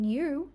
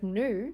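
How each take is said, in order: First: A y sound comes before the vowel. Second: No y sound comes before the vowel. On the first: "maybe it's popping up in" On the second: "instead of"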